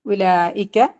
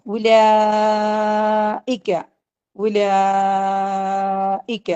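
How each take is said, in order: First: Said in the usual way. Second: Very slow, long drawn chant; slow tajweed chant; Quran recitation. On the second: Shown as a demonstration. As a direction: stretch the word out like recitation. Teacher recites the word for class.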